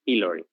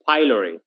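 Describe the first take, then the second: First: It is pronounced the Latin way. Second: It is pronounced the English way. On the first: "the correct pronunciation in Latin is pylori" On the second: "English people pronounce it pylori"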